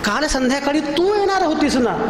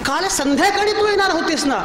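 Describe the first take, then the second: First: The stress falls on the word तू. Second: The stress falls on the word संध्याकाळी. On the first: This person was expected, not someone else. "ती कशी काय आली?" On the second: The visit was expected in the evening, not the afternoon. "दुपारी कशी आलीस?"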